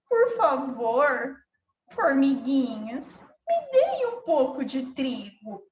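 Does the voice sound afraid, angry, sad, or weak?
sad. The voice sounds sad and downcast. The speaker feels sad. "Se ela tivesse com tristeza"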